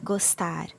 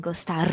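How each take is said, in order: First: Gostar with a light tapped R; subtle rolled R. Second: Gostar with a heavy trilled R; over-roll the R in gostar; exaggerated rolled R. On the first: Teacher shows her gostar, subtle R. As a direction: barely roll the R in gostar. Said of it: "it's not very pronounced". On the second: Teacher shows the overdone gostar, heavy R. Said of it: "but it's not gostar". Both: Shown as a demonstration.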